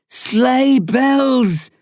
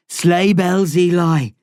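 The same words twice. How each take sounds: First: Louder, much higher shout of the words; shouted repeat. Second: Said in the usual way. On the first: A narrator's reading. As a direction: bark "Sleigh bells" out insistently. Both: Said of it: "the man repeats".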